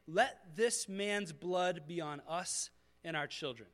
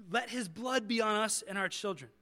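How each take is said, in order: First: Slow solemn curse. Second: Mock crowd yell. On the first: Retold or imitated. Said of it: "They, they yell this curse". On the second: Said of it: "that's what they yell".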